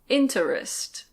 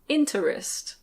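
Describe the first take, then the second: No difference in how they are said.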